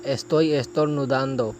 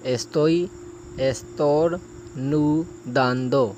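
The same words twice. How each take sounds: First: Said in the usual way. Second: Estoy estornudando broken into slow, stretched syllables; slow it right down so learners can follow; slow practice take. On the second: Shown as a demonstration. Teacher slowly breaks down a tricky phrase for practice. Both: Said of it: "یہ فقرہ تھوڑا مشکل ہے".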